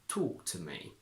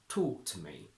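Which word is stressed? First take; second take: talk; talk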